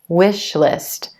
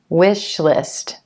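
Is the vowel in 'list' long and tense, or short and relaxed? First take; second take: short relaxed; short relaxed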